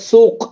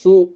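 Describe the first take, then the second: First: The word ends with a final k-like consonant. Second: The word ends on the vowel, without a consonant. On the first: This is the standard Arabic form. "அரபிக்ல சூக்" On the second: This is a dialect pronunciation. "சூ அப்படின்னு ப்ரொனன்ஸ் பண்ணுவாங்க"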